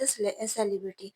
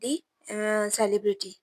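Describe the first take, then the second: First: 'The' is said as a short, unstressed 'thuh'. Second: 'The' is said as a long, stressed 'thee'. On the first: It is a plain statement of fact. "आप बोलेंगे I met द celebrity" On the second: It expresses surprise that it was that famous person. "दी पे ज़्यादा जोर दिया जाएगा। दी emphasis word है"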